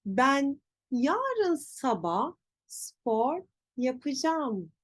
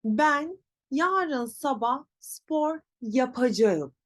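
First: Slow, yapacağım as ya-pı-jam; spoken contraction. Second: Slow, yapacağım in full, ya-pa-ja-ım; written form. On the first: Teacher shows pronunciation, yapacağım as yapıcam. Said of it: "Nasıl telaffuz edeceğiz?". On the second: Teacher reads what is written, full yapacağım. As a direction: read yapacağım as spelt. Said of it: "yazıyor". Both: Shown as a demonstration.

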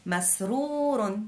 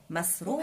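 First: مسرور stretched syllable by syllable; slow drawn-out word. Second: Said in the usual way. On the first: Shown as a demonstration. Teacher reading مسرور very slowly to children. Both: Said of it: "كلمة مسرور".

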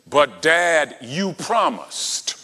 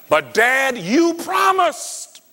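First: Plain voice, slow on "you promised"; lightly hint at a child reminding dad; child pleading. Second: Much higher, slow whiny "you promised"; child pleading. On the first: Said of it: "When a child comes to you and says". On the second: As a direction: play the son cornering his dad with a high whine. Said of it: "he comes in and said". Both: Retold or imitated.

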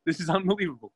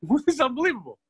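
First: Said in the usual way. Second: Can't believe his luck, laughing; laughing disbelief. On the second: Retold or imitated. King amazed, laughing.

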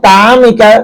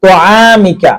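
First: তামিকা with a thin, open তা; তামিকা said with a plain, thin তা; light ta. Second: তোয়ামিকা with a thick, rounded ত; তোয়ামিকা, the ত read heavy and full. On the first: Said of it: "তা হলে তামিকা হতো". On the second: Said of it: "মোটা করে পড়তে হবে". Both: Shown as a demonstration.

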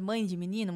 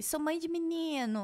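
First: Said in the usual way. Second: Higher, softer, drawn-out mimicry; mock TikTok mother voice, stretched out; imitating TikTok boy-mom. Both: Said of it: "Mulher que fala assim no TikTok".

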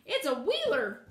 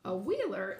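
First: Loud, slow alarmed hen cry; frightened hen. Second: Put-on lower, puzzled girl's echo; girl repeating the hen's word in wonder; puzzled exclamation. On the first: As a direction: warn her in fright, drawing it out. Hen cries warning in fright. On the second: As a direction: echo the word, not understanding. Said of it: "exclaimed Dorothy". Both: A narrator's reading.

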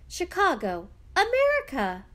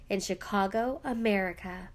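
First: America yelped much higher and louder; excited yelp. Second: Said in the usual way. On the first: A narrator's reading. Young daughter yelping at news of Chicago, America. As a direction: burst out with America in delight. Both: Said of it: "Fiona yelped".

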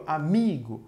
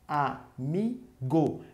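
First: Said in the usual way. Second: "Amigo" very slowly as a, mi, go; split into syllables. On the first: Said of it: "Eu tenho aqui". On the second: Shown as a demonstration. Teacher introducing an example to pupils, "Amigo" syllable by syllable. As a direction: pause after each syllable of "Amigo". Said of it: "Se eu separar, vai ficar assim".

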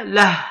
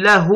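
First: "له" as lah, ending on a breathed h; pausal form. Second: "له" as lahu, the final hu sounded and held; connected form. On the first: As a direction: stop on "له" with no final vowel. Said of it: "عند الوقف على الكلمة". ("له" بسكون الهاء عند الوقف) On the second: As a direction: say "له" with its ending vowel, la-huu. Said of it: "عند الوصل وعند الوقف". ("له" بضم الهاء عند الوصل) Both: Shown as a demonstration.

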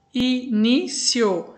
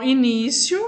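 First: "início" slowly split into separate syllables. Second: Said in the usual way. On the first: Shown as a demonstration. Teacher separating a word for the class, "início" syllable by syllable. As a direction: break "início" into slow, distinct syllables. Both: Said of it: "separe-as em sílabas".

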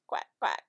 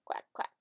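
First: Much lower, loud quack; duck quack. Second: Whispered quack. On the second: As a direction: whisper the quack like a tiny duck. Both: Shown as a demonstration. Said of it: "What does a duck say?".

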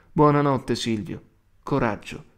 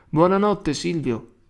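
First: Moved voice. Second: Put-on higher, louder child's shout; children calling goodnight. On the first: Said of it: "ripetea con voce commossa". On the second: Children at the window to the prisoner, high loud goodnight call. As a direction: call it out across the courtyard. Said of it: "i fanciulli gridavano". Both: A narrator's reading.

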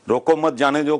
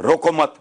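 First: Said in the usual way. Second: रोको मत said as one unit, then a clear break; louder रोको मत followed by a pause; pause after मत. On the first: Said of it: "के तीन मतलब हैं". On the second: Shown as a demonstration. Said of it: "pause दे लो".

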